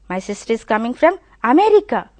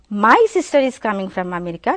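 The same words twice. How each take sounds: First: The stress is on the word America. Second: The stress is on the word sister. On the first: She comes from America, not another place. "The stress is on America" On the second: The sister is coming, not anyone else. "I am giving stress on sister"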